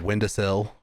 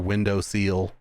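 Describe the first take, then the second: First: The last syllable has a short 'i' vowel. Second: The last syllable has a long 'ee' vowel.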